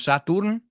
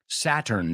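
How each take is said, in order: First: The second syllable has an 'oo' vowel. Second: The second syllable has an 'er' vowel. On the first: The speaker calls it wrong. "No Saturn" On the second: The speaker calls it right. "La U como una E en tu cabeza"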